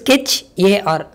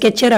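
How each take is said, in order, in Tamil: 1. கடைசி பகுதி 'A R' என்று இரண்டு எழுத்துகளாக சொல்லப்படுகிறது. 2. கடைசி பகுதி ஒரே 'er' ஒலியாக இணைந்து சொல்லப்படுகிறது. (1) "அதோட ஆக்சுவல் ப்ரொனன்சியேஷன்" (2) "நிறைய பேர் ஸ்கெட்சர் அப்படின்னு சொல்லி ப்ரொனவுன்ஸ் பண்ணுவாங்க"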